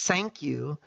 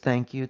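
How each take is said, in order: First: The first word begins with an s sound. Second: The first word begins with a th sound. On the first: This is how the accented speaker says it. The speaker calls it wrong. "when she says" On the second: This is what the listener understands. The speaker calls it right. "it registers as"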